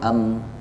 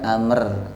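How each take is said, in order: First: The final r is left out entirely. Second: The final r is thin and light. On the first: "bukan amr atau am, keliru" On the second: "bukan amr atau am, keliru"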